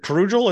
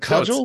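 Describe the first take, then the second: First: An r sound follows the first consonant. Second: No r sound follows the first consonant. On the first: The speaker calls it wrong. "kind of like a cudgel, but pronounced wrong" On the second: The speaker calls it right. "it's a cudgel"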